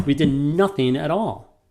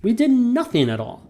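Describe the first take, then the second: First: "We did nothing at all" with stress on "did"; natural read. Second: "We did nothing at all" lifted much higher on "did"; sing-song repeat. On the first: Teacher showing the natural read to a student. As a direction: read it plainly, weight on "did". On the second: Teacher repeating the line in a higher sing-song. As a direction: repeat it up high and lilting. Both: Shown as a demonstration. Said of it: "Natural read is".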